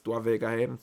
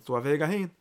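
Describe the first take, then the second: First: Said in the usual way. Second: "hin" pushed up with a rise; emphatic repeat. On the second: Shown as a demonstration. To the listeners, repeating the point with emphasis. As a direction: lean into "hin" the second time. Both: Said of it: "repeated for emphasis".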